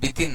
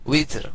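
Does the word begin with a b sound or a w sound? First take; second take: b sound; w sound. First: The word begins with a b sound. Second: The word begins with a w sound. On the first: The speaker calls it wrong. "আসলে বিতির না" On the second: The speaker calls it right. "শব্দটা হচ্ছে উইতর। উইতর, ওয়াও।"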